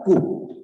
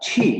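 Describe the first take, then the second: First: It starts with a 'k' sound and plain 'u'. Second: It starts with a 'ch' sound and rounded 'ü'. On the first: The speaker calls it wrong. "bukan baca ku" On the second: The speaker calls it right. "harus baca ci"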